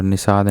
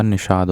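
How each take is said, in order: First: निषाद said with "s", as "nisaad"; wrong sibilant. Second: निषाद with a clear "sh", as "nishaad"; correct sibilant. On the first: Teacher showing the error, निषाद said as "nisaad". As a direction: swap the "sh" in निषाद for a plain "s". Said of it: "नहीं होता". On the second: Teacher correcting, निषाद said as "nishaad". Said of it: "पेट फड़ुआ श वाला". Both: Shown as a demonstration.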